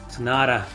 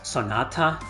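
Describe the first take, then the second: First: The T is softened in an American accent. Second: The T sound is crisp and emphasized. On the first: "like in the American accent" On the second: "with an emphasis on the T"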